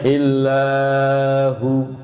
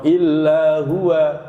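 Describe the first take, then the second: First: The final vowel is cut short, not held. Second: The word ends with an added 'wa' syllable. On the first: "Ada yang baca pendek illahu, salah" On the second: "masih ada yang baca wakofnya illa huwa, begitu. Salah"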